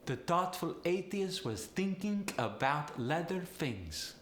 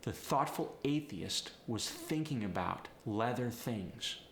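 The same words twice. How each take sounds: First: Higher-pitched Polish accent demo. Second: Said in the usual way. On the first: Shown as a demonstration. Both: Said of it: "people with a Polish accent".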